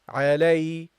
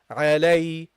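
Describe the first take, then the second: First: The second syllable sounds like 'lay', a diphthong. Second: The second syllable sounds like 'lay', a diphthong.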